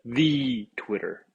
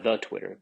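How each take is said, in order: First: "the" drawn out as a long "thee"; emphatic, stretched "the" before Twitter; stress on "the". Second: Said in the usual way. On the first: Shown as a demonstration. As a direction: lean slowly on "the", saying it "thee". Corrected, emphatic "the.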